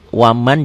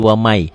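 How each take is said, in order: First: The final n sound is clearly pronounced. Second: The n sound merges into the following y. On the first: This is how the word is written. The speaker calls it wrong. "Ditulisnya waman" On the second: This is how the word is read in recitation. The speaker calls it right. "Dibacanya jadi wamai"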